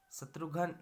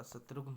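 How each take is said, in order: First: शत्रुघ्न split as 'shatru-ghan'; wrong form. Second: शत्रुघ्न ending in joined 'ghn', softer; correct form. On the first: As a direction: add a vowel before the last 'n' of शत्रुघ्न. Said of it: "नहीं होता". (शत्रुघ्न को 'शत्रुघन' बोलकर) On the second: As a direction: close शत्रुघ्न on the cluster, no vowel between. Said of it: "होता". (शत्रुघ्न, 'घ्न' मिलाकर) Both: Shown as a demonstration.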